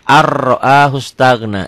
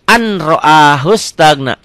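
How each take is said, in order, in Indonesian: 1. N menyatu jadi bunyi r ganda. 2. Bunyi n dibaca sebelum r. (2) "Contoh yang lainnya"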